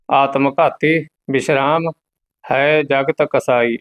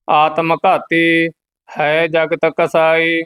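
First: Spoken, unchanted, with a clear break after "ਆਤਮ ਘਾਤੀ"; pause demonstration. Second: Monotone Gurbani chant with held endings; measured devotional reading; scripture recitation. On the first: Shown as a demonstration. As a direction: lift "ਘਾਤੀ", pause, then "ਹੈ ਜਗਤ ਕਸਾਈ" as one phrase. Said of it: "ਇਹਦਾ ਮੁੱਖ ਵਿਸ਼ਰਾਮ ਹੈ". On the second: Acted. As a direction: recite on one steady note.

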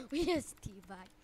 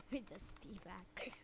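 First: Said in the usual way. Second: Slow hushed whisper of "We just teabag". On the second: Shown as a demonstration. Gamer whispering after teabagging an opponent.

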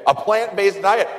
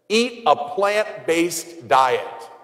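First: Higher and louder, rising in mock disbelief; incredulous repeat. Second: Each word laid out slowly like a decree; slow quoted advice. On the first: Priest scoffing at the diet advice, incredulous rising repeat. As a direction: toss it back as if it's absurd. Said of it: "that's ridiculous". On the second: Retold or imitated. Priest quoting a documentary's diet advice, slow and deliberate. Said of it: "Their answer was this".

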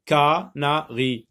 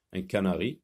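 First: "canari" slowly split ca... na... ri; syllable by syllable. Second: Said in the usual way. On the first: Shown as a demonstration. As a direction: separate "canari" into three syllables with short pauses. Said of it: "dans la première syllabe". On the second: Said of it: "on entend E que dans la première syllabe".

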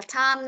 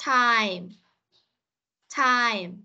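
First: Time with the ai glide flattened to a plain a; mispronunciation demo. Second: Time with a full ai glide into m; corrected pronunciation. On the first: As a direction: mimic the pupil's faulty time, no i glide. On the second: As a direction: model Time, sliding from a to i before the m. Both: Shown as a demonstration. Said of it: "Không phải là time đâu".

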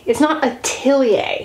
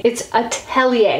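First: Atelier said "a-TILL-ee-ay", stressing TILL; "atelier" with the I of "till" in the middle; wrong atelier. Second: Atelier said "a-TELL-ee-ay", with a clear E; "atelier" slowly, middle vowel E as in "tell"; right atelier. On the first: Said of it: "if you were to pronounce that word with a French accent". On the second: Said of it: "but that's an E, not an I". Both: Shown as a demonstration.

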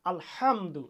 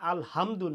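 First: আলহামদু with the h pressed hard in the throat; the right way to say আলহামদু, throat squeezed; correct throat h. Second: The common wrong way to say আলহামদু; wrong plain h. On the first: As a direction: correct Arabic h. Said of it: "এভাবে আমরা উচ্চারণ করব". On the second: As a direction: incorrect pronunciation. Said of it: "আলহামদু না". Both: Shown as a demonstration.

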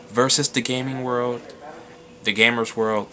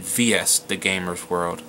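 First: "Versus" said as the whole word; VERSUS as full word. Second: "V S" spelled out as two letters, slowly. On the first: Vlogger showing a channel name two ways, "Versus" as a word. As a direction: read "Versus" in full, not as initials. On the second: Vlogger showing a channel name two ways, "V S" as initials. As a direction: say "V S" letter by letter, deliberately. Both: Shown as a demonstration. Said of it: "I'm gonna say this two ways".

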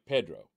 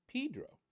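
First: "Pedro" said PED-ro, low; short E in "Pedro", pitched down; viewer's pronunciation. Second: "Pedro" said PEE-dro; long E in the first syllable of "Pedro"; friend's pronunciation. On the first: Retold or imitated. Quoting the viewer's answer, "Pedro" as PED-ro. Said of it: "And you were like, "Pedro". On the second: Shown as a demonstration. Telling how the friend says it, "Pedro" as PEE-dro. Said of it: "he pronounced it Pedro".

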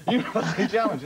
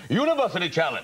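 First: Very high, tiny announcer voice; wee hamster. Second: High, ringing quiz-show announcer; huge-guy announcer. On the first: Comic revealing the wee man behind the voice, hamster squeak. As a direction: squeak out the show title like a mouse that roared. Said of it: "It was like a wee hamster". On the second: Comic recalling that quiz voice, huge-guy announcer. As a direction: boom out the show title grandly. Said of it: "all imagine it's some huge guy". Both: Acted.

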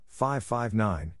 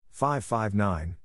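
No difference in how they are said.

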